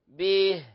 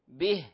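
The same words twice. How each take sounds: First: The vowel is drawn out into a y sound. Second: The vowel is a clear short i. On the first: The speaker calls it wrong. "لا نقول به، يعني نجعل ياء قبلها" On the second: The speaker calls it right. "الأصل نقول به"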